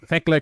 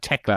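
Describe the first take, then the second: First: The name starts with a th sound. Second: The name starts with a plain T sound. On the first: The speaker calls it wrong. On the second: The speaker calls it right.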